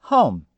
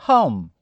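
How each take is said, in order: Both takes have the same delivery.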